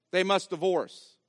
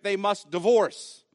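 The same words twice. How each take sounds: First: "must" hit hard, falling off through "divorce"; stress on must. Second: Slow, weighty "they must divorce" with "divorce" leaned on hard; stress on divorce. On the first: Preacher driving it home to the congregation, weight on "must". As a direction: punch "must", then let the line drop. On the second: Preacher to congregation, slowing to press on "divorce". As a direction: land on "divorce", unhurried and firm. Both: Real, not acted.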